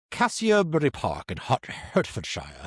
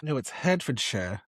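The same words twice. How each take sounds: First: Put-on British accent, "Hertfordshire" as HART-fuhd-shire; lightly hammed English accent on the place name. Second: "Hertfordshire" said HAR-fuhd-shuh, short unstressed ending; "Hertfordshire" with a clipped -shuh ending, not shire; correct pronunciation. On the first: Host attempting the place name in a British accent. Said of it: "I'm gonna do the accent this time". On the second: Shown as a demonstration. Co-host correcting the place name, short -shuh ending. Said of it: "you can't say Shire".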